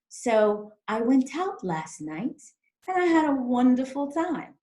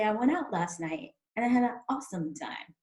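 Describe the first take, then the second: First: The T in 'went out' is crisp, British-sounding. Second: The T in 'went out' is dropped, American-sounding.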